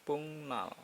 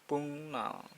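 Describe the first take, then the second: The two takes are said the same way.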